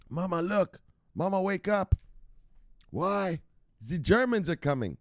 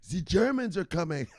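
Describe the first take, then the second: First: Put-on high little-kid voice, urgent; a child shaking a parent awake, much higher; a small child tugging at mama, high-pitched; kid waking mama. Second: Put-on high, heavy German accent with a z for th; hammed-up German warning; German accent, high and emphatic; mock German accent. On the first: Skit of waking a sleeping parent.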